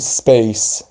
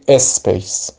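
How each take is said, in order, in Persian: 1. s اول کلمه مصوت اضافه نداره. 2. قبل از s اول کلمه یه مصوت اضافه میشه. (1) "سپیس یعنی ساکن تلفظش کنیم" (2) "یا بگیم اسپیس"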